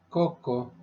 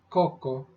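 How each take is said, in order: The two takes are said the same way.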